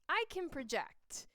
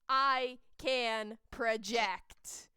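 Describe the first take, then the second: First: It is said at normal, moderate volume. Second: It is said very loudly, projected forcefully.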